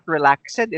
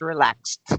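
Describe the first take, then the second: First: The word ends without a T sound. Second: The word ends with a T sound. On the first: The speaker calls it wrong. "it's not relaxed" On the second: The speaker calls it right. "it's the T sound at the end"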